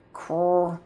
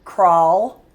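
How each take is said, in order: First: "crawl" said quietly, slowly sounded; soft sounded-out crawl. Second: "crawl" said firmly and louder with a rise; clear crawl. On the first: Teacher sounding out crawl for a child. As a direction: ease into "crawl" gently. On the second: Teacher confirming the word crawl for a child. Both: Shown as a demonstration. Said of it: "But this one is".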